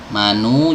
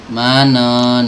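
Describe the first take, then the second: First: The final vowel is u with rounded lips. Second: The final vowel sounds like a, unrounded. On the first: The speaker calls it right. "dhammah dimonyongkan" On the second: The speaker calls it wrong. "malas maju bibirnya, ini juga salah ya"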